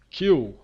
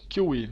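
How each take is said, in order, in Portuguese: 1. A palavra é dita com uma sílaba. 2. A palavra é dita com duas sílabas. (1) "Isso, queue" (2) "Não sei se essa pronúncia é certa aí"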